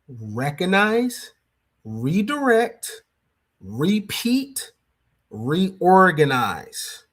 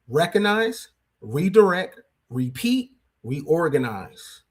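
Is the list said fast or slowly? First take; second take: slowly; fast. First: The list is said slowly. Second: The list is said at a faster pace.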